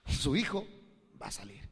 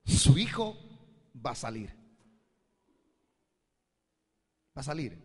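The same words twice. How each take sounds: First: Said in the usual way. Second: Prophetic declaration. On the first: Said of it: "le dije". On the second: Retold or imitated. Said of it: "Y le dije".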